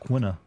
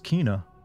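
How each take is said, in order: First: The name begins with a KW sound. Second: The name begins with a plain K sound. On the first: This is how the speaker always said it. The speaker calls it wrong. "I've always pronounced it as Quina" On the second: This is the official pronunciation. The speaker calls it right. "that's how you pronounce that name"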